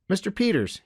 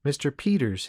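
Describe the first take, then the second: First: Put-on high boyish voice; young boy trying the polite form; corrected boy restarting. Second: Lightly voiced mother, a little higher; a hint of a correcting mom. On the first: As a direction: repeat it as a child would, pitched well up. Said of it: "he began again". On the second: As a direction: gently put the child right. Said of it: "his mother corrected". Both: A narrator's reading.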